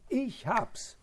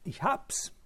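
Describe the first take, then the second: First: The stress falls on the word ich. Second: The stress falls on the verb hab's. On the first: I am the one who found it, not the others. "dass die Betonung auf dem Ich liegt" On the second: The experience of discovering it is what matters. "Wenn man die Betonung auf das Verb legt"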